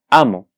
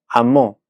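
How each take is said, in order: First: The stress is on the first syllable. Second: The stress is on the last syllable. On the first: "tiene la sílaba tónica en la penúltima, en este caso, la primera sílaba" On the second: "Amó sale de esta naturaleza"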